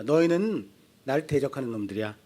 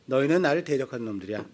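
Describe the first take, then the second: First: Low, soft stern rebuke; a hint of God scolding his people. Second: Low, soft, quick stern rebuke; God flatly repeating the charge. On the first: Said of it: "하나님이 이스라엘을 향해서 말씀하세요". (낮고 조용하게 꾸짖는 하나님 목소리) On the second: Acted. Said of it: "말라기에서 그러시는 거예요". (낮고 빠르게 되풀이하는 하나님의 책망)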